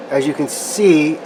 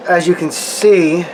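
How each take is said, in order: Both takes have the same delivery.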